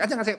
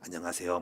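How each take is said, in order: First: It is said in a frivolous, flippant way. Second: It is said in a dignified, gentlemanly way.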